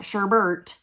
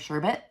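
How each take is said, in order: First: The word has an extra r sound. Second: The word has no extra r sound. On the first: The speaker calls it wrong. "put an R at the end of sherbet" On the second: The speaker calls it right. "There's no R at the end"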